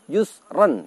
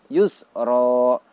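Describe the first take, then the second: First: The word ends with a short vowel plus n. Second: The word ends with a long a vowel. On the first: The reading continues without stopping. "ketika dalam keadaan wasol dibaca pendek. Yusron begitu" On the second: The reading stops at this word. "ketika waqaf, ketika kita menghentikan bacaan, maka yusron kita baca menjadi yusro"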